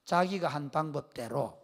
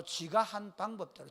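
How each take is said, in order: First: Said in the usual way. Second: Gyeongsang dialect "지가" for "자기가"; slow Gyeongsang phrasing with short "지가". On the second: Shown as a demonstration. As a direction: say "지가" the Gyeongsang way, slowly. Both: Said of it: "경상도 말이고".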